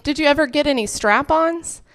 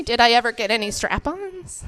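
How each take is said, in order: First: Lightly voiced mom, higher pitch; casual higher-pitched maternal question; mom's question. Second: Softer deadpan echo of mom's question; restrained, disbelieving read-back; repeating back. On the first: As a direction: ask it innocently as mom, pitched up. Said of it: "And she said". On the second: Retold or imitated. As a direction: say it back carefully, quietly checking. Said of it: "say back to you what you just said".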